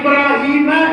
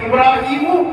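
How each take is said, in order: First: The name ends with a short a vowel. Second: The name ends with a short u vowel. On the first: God tested Ibrahim. The speaker calls it right. "வைதுபுத்தலா இப்ராஹீம என்பதற்கு பதிலாக" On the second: Ibrahim tested God. The speaker calls it wrong. "இப்ராஹீமு என்று நாம் படித்து விட்டால்"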